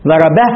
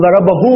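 First: ضربه stopped on a silent h with no vowel after it; pausal form with sukun. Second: ضربه said as ضربهُو, the final u stretched into a long uu; lengthened pronoun vowel. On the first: Teacher showing how to stop on ضربه. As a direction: clip ضربه short on the h. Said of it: "يقف على الهاء بس بالإسكان". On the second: Teacher demonstrating the lengthened vowel on ضربه. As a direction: draw out the u of ضربه. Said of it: "يعني نشبع الضم حتى يصير ماذا؟ واو". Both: Shown as a demonstration.

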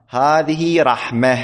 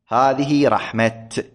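First: "رحمة" ending in h, raħmah, slowly; careful demo of "رحمة" with final ha; pausal ha ending. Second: "رحمة" ending in t, raħmat, slowly; final t kept. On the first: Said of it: "يعني، تلفظها". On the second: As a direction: stop "رحمة" on a clear t. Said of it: "يقف بالتاء". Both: Shown as a demonstration.

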